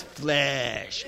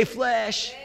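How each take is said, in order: First: Flesh said low, soft and stretched out; low, lingering "Flesh"; drawn-out FLESH. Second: Said in the usual way. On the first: Shown as a demonstration. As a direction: draw out the word Flesh in a low, hushed tone. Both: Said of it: "Say it like this".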